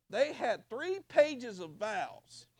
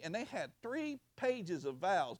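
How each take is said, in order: First: Very slow, higher, stretching "three"; drawn-out emphasis. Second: Said in the usual way. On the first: Retold or imitated. Pastor marveling at a couple's long vows, very slow. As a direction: savor the absurdity.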